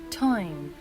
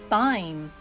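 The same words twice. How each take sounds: First: The initial t has a strong puff of air. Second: The initial t has no puff of air. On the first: The speaker calls it right. "it must be pronounced as t" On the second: The speaker calls it wrong. "some people pronounce it as t"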